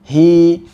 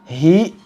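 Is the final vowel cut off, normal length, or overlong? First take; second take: normal; cut off. First: The vowel is held two counts, ending smoothly. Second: The vowel ends in an abrupt glottal stop. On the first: The speaker calls it right. "hanya dua harokat saja" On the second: The speaker calls it wrong. "menambah hamzah"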